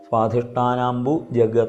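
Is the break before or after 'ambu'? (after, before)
after. The pause comes after ambu, before jagata. The speaker calls it wrong. "അങ്ങനെയല്ല"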